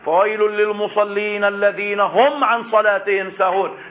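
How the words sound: The voice continues straight past the word lil-musallin. The threat is limited to those heedless of prayer. "فينبغي أن يوصل بما بعده ليستبين المعنى"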